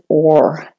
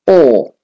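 First: "or" with the R pronounced; American "or". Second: "or" as a long "aw" with no R; British and Australian "or". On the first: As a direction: say "or" the American way, R sounded. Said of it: "if you're doing the American". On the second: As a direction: drop the R from "or", British style. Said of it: "doing the British and Australian, it's or". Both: Shown as a demonstration.

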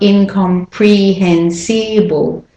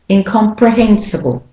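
First: "incomprehensible" slowly with every syllable equal, "pree-hen-see-bull"; over-pronounce each vowel in "incomprehensible"; wrong full vowels. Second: "Incomprehensible" with quick schwas in "pre", "si", "ble"; reduced weak vowels. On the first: Teacher showing what it's not, every vowel full. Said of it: "It's not incomprehensible". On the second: Teacher correcting for learners, natural reduced vowels. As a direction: stress "hen" in "Incomprehensible", swallow weak syllables. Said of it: "It's not". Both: Shown as a demonstration.

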